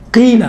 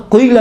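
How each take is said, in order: First: قیل with a light, unrounded "qeel"; thin, clean onset on قیل; thin qaf. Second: قیل with a thick, rounded "qweel" start; over-thicken the qaf of قیل; heavy, backed onset on قیل; wrongly heavy qaf. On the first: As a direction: keep the qaf of قیل fine before the "ee". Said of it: "بالکل باریک تلفظ ہوتا ہے". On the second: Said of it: "نہیں کہیں گے ہم". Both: Shown as a demonstration.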